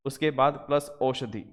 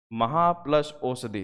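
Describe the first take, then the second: First: Said in the usual way. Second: महा plus औषधि said slowly, part by part; slow dictation. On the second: Shown as a demonstration. Teacher to students dictating the split, slowly. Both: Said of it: "महा लिखते हैं हम".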